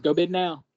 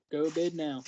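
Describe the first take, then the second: First: Emphatic. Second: Said in the usual way. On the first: Shown as a demonstration.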